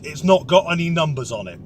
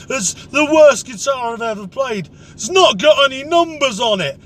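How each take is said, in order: First: Said in the usual way. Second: Indignant, higher and a bit louder; a mock drunk blaming the guitar; drunk bloke complaining. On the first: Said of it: "not got a fucking clue what that means". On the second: Drunk pub guitarist blaming the instrument, in an indignant mock voice.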